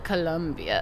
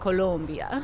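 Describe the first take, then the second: First: The second syllable sounds like 'lum'. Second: The second syllable sounds like 'lom'. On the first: This is the name as it is often wrongly said or spelled. The speaker calls it wrong. "not Colombia" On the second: This is the country's name as spelled with an O. The speaker calls it right. "but Colombia"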